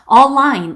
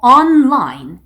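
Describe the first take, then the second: First: The n sound after 'o' is dropped. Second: The n sound after 'o' is clear. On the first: The speaker calls it wrong. "online 이게 아니고" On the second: The speaker calls it right. "online 이렇게 정확하게 발음을 해주셔야 돼요"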